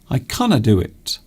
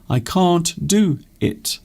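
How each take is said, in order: First: The word can't is said as canna. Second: The word can't is said in full. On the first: "I canna" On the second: "We can also say can't"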